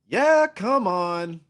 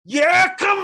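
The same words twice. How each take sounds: First: It is said with little energy. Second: It is said with more energy.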